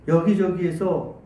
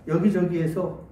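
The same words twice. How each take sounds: Both takes have the same delivery.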